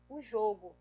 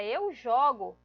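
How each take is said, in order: First: O jogo said as a set-apart noun, with a lower, separate voice; showing O jogo as a noun; noun sense shown. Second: Eu jogo with the stress on eu, louder; showing eu jogo as a verb; verb sense shown. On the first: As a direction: present O jogo as the name of an event. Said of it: "o jogo é o nome de um evento social". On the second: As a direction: lean on eu to show eu jogo is an action. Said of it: "eu jogo é uma ação, é um verbo". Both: Shown as a demonstration.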